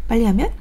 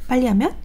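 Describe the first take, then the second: No difference in how they are said.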